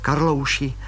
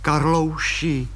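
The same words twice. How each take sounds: First: Said in the usual way. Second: Slow coaxing call. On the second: Acted. Wife coaxing husband.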